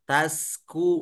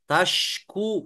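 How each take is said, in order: First: The middle consonant is an s sound. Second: The middle consonant is a sh sound. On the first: The speaker calls it wrong. "tapi malah ke huruf sin berubah" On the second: The speaker calls it right. "tadinya huruf shin"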